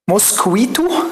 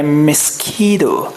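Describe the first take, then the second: First: It is said with a full 'kwee' and clear t. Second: The t is softened into a light d sound. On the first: The speaker calls it wrong. "انا حفظتها كده" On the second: The speaker calls it right. "التي تي دي هنخليها دي خفيفه كده"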